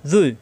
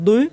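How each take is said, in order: First: "জুই" buzzed heavy, lips unrounded; tongue tip at teeth for a dark "জুই"; emphatic fricative in "জুই"; thick za. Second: "দুই" with a thick stopped d; dark emphatic d in "দুই"; heavy Arabic dad. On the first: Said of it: "মুখ গোল হবে না". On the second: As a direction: press "দুই" from the tongue's side. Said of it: "দুটোটাই মোটা হরফ". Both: Shown as a demonstration.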